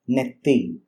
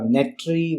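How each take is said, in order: First: The middle consonant is a long double t. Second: The middle consonants are a t and r. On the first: It is the everyday spoken form of the word. "in a day-to-day usage conversation, you have to say netti" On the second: It is the formal form of the word. "which is a formal usage"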